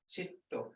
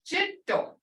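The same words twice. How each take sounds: First: Chito said low and flat, almost under the breath; without the tone. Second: Jito with a high falling tone. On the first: Teacher showing jito without its tone. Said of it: "Can I say it without a tone?". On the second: Teacher showing the tone in jito. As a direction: start Jito high and let it fall. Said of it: "There's a tone in it". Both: Shown as a demonstration.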